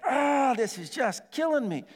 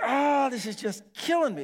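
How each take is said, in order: First: High, slow pained moan. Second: High pained moan. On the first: Pastor moaning in pain at the gas station, slow and high. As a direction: groan it out like the ear is on fire. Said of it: "I'm like". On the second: Pastor moaning in the stranger's car, high and pained. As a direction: whimper it like the ear is burning. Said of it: "like, ... You know, like this". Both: Retold or imitated.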